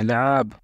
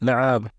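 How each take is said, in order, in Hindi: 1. शब्द सीधे 'l' की आवाज़ से शुरू होता है। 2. शब्द सीधे 'l' की आवाज़ से शुरू होता है।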